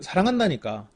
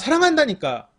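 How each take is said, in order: First: It is said in a warm, affectionate voice. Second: It is said in an angry, annoyed voice. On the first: The speaker truly means the love. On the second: The speaker is bothered rather than loving.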